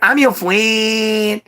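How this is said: It imitates his childhood best friend's voice.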